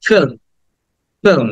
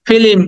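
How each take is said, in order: First: "ফিল্ম" in one short syllable, light l; brief falling "ফিল্ম", l barely touched before m; correct pronunciation. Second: "ফিল্ম" broken in two, fi-lim; extra i inside "ফিল্ম", higher-pitched; common mispronunciation. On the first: Teacher modelling the slight L, carefully pronounced. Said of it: "লটা উচ্চারণ করতে হবে সামান্য". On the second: Teacher quoting what many say, mispronounced. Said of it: "এটা আমরা অনেকে বলি". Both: Shown as a demonstration.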